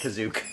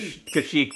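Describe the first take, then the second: First: The name is said like 'Kazook'. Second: The name is said like 'Kasheek'. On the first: This is how others say the name. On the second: This is the usual way to say the name.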